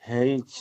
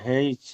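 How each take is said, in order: No difference in how they are said.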